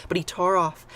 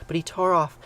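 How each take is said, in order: Both takes have the same delivery.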